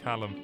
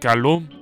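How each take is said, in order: First: The name has an English pronunciation. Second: The name has a French pronunciation.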